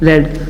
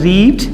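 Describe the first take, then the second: First: The vowel is short, like 'red'. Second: The vowel is long, like 'reed'. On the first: It is the third form of the verb. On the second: It is the present form of the verb.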